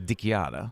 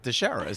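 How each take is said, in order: First: The name is said with Italian pronunciation. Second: The name is said with English pronunciation. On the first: "In real Italian is" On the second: "in English, it's"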